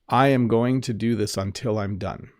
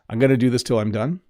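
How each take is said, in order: First: It is spoken slowly with every word clear. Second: It is spoken quickly with reduced words. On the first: "a little bit slower" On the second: "like a normal speed, fast English"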